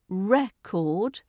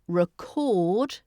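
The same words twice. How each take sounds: First: The stress is on the first syllable. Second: The stress is on the second syllable. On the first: It names a thing that stores information. "the noun" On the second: It names the action of capturing something. "so the stress is on the second syllable"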